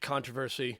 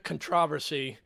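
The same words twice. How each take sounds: First: The word is said the American way. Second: The word is said the non-American way.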